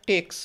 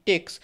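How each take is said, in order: Both takes have the same delivery.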